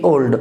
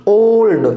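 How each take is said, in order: First: ओल्ड with a short, undrawn o; wrong vowel. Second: ओल्ड with a long gliding oh; diphthong o. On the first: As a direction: say ओल्ड with a quick single vowel. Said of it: "नहीं कि ओल्ड". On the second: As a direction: stretch the opening vowel of ओल्ड. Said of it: "diphthong का ओ". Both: Shown as a demonstration.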